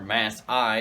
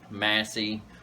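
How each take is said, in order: First: The name ends with an 'eye' sound. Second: The name ends with an 'ee' sound.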